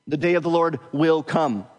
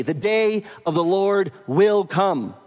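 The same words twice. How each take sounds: First: Said in the usual way. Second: Slow, weighty "The day of the Lord will come"; certain proclamation. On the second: Shown as a demonstration. Preacher proclaiming the verse to his flock, certain. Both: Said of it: "The ring of certainty there".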